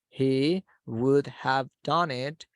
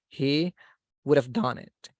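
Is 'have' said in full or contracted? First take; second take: full; contracted. First: The word 'have' is said in full. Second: The word 'have' is reduced to a short 'of'.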